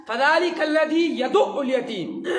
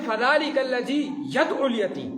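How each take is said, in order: First: "يَدُعُّ" with u after dal and doubled ayn; correct pronunciation. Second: "يَدْعُ" with vowelless dal and single ayn; mispronunciation demo. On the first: Teacher models the verse for students, correct "يَدُعُّ" pronunciation. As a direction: hold the doubled sound in "يَدُعُّ". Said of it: "بہت بڑی غلطی کر جاتے ہیں". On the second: Teacher shows students a common error, "يَدْعُ" with vowelless dal. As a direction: run dal straight into ayn in "يَدْعُ", no doubling. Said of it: "ترجمہ بالکل غلط ہو جاتا ہے". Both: Shown as a demonstration.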